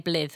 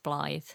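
First: The vowel is a short 'ih' sound. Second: The vowel is a long 'eye' sound. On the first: The speaker calls it wrong. "You wouldn't say Blith" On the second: The speaker calls it right. "I'm assuming it's Blythe"

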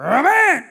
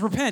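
First: It is said in a growling, fired-up voice. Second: It is said in a plain, calm voice.

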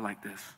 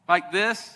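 First: The phrase is spoken softly. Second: The phrase is spoken loudly. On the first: This is how God speaks. "but more like this" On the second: This is how God does not speak. "God speaks not like this"

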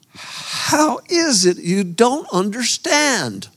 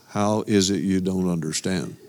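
First: It is said with strong emotion. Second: It is said flatly, without emotion.

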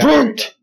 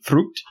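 First: The word is barked out harshly and angrily. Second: The word is said calmly without force. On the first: The speaker calls it right. "There it is" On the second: The speaker calls it wrong. "You didn't sound angry enough"

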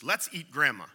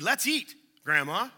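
First: It runs straight on with no pause. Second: There is a pause before 'grandma'.

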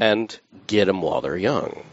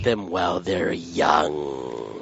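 First: It is said in a plain, neutral tone. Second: It is said in a deliberately creepy tone.

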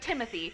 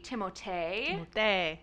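First: The name is pronounced the plain English way. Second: The name is pronounced the French way. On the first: "so he prefers to be called" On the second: "Technically, his name would be Timothée. Because it has that accent aigu"

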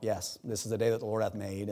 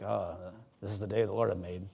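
First: It is said in a joyful, upbeat tone. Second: It is said in a gloomy, reluctant tone.

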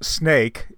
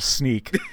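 First: The vowel sounds like 'ay' in snake. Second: The vowel sounds like 'ee' in sneak. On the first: This is the local pronunciation of the name. "It's pronounced snake in Dutch" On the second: This is a playful reading of the name as spelled. "but I like to think of it as going to sneak"

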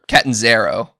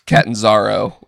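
First: A vowel in the name sounds like E. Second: A vowel in the name sounds like A. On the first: This is how it was said on TV. The speaker calls it wrong. "is how they were pronouncing it on TV" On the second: This is how it was said on another show. The speaker calls it right. "because it's an A, not an E"

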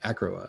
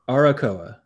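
First: The name is said without the extra A sound. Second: The name is said with an extra A sound. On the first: "I think I'm skipping that extra A"

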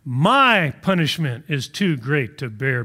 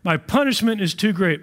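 First: It is read slowly and deliberately. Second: It is read at a normal pace.

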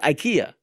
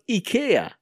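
First: The name is said in its American form. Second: The name is said in its Swedish form. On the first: The speaker calls it wrong. "I always thought it was IKEA" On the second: The speaker calls it right. "It's pronounced IKEA"

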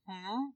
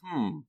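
First: The pitch rises at the end. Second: The pitch falls at the end.

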